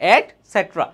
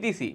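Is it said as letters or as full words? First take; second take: full words; letters. First: It is said as the full words. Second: It is spelled out as three letters. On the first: The speaker calls it right. "আসলে এটার উচ্চারণ হচ্ছে এট সেট্রা" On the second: The speaker calls it wrong. "আমরা সবাই ইটিসি বলি"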